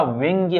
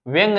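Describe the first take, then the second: First: व्यंग्य said with a light य after the ग; correct form. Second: व्यंग said without the final य, ending on a bare ग; wrong form shown. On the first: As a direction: give व्यंग्य its full ग्य ending. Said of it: "व्यंग्य होता है". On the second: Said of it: "व्यंग नहीं होता". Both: Shown as a demonstration.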